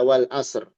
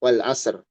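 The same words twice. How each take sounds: First: The final r is heard but its weight is unclear. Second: The same.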